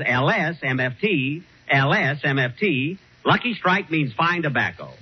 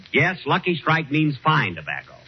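First: Slow, deliberate commercial read; ad slogan read. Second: Said in the usual way. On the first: Shown as a demonstration. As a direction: spell the letters out like a radio announcer. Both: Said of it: "All you have to say is".

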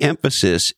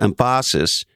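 First: Said in the usual way. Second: "emphasis" with stress moved onto the second syllable, em-FAH-sis; wrong syllable stress. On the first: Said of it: "the emphasis is on the wrong syllable". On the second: Retold or imitated. Quoting a movie line, "emphasis" stressed em-PHA-sis. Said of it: "As we say sometimes around here".

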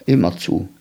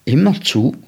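First: "Immer zu" low and falling; confirming. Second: "Immer zu" raised as a question. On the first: Boy confirms his watch to the man, "Immer zu" lowered, confirming. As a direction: answer "Immer zu" as a settled statement. Boy answers the man's question. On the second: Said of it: "fragte der Mann". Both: A narrator's reading.

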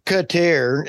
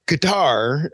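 First: Qatar as "kuh-TAIR"; French-style Qatar. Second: Qatar stressed on an open TAR; Qatar as "kuh-TAR". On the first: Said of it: "if you're French". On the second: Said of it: "heard about nineteen different ways". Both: Shown as a demonstration.

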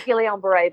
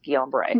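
First: Guillain-Barré with the L sounded, like "Gillian"; alternative pronunciation. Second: Guillain-Barré as "gee-on bar-ay", hard G; confirmed pronunciation. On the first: Patient quotes how some people say it, L sounded in Guillain-Barré. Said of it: "Some people say Guillain-Barré". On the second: Patient corrects host, saying Guillain-Barré as "gee-on bar-ay". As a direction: drop the L sound in Guillain-Barré. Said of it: "five neurologists confirm that's Guillain-Barré". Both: Shown as a demonstration.

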